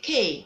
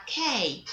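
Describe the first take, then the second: First: K said the mistaken way, as a counterexample; wrong letter name. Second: K said as the teacher's model letter name; correct letter name. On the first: Teacher warns pupils off a mistake, wrong pronunciation. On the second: Teacher corrects pupils on the letter, correct pronunciation. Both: Shown as a demonstration. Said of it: "You don't call it K".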